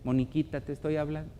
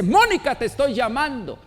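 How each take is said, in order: First: It is said in a soft, calm voice. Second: It is said in a raised, loud voice.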